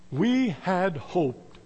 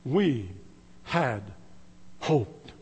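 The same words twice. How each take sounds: First: Heavy quoted line. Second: Each word isolated with long pauses; slow, lower, softer, word by word; spaced-out stress. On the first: Retold or imitated. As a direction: let each word sink with the preacher's grief. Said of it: "One preacher got a hold of that passage". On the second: Shown as a demonstration. Preacher savoring the saddest words, pausing between each. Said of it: "the three saddest words".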